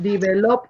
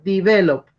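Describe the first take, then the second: First: The stress is not on the second syllable. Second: The stress is on the second syllable. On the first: The speaker calls it wrong. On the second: The speaker calls it right. "The stress is in ve"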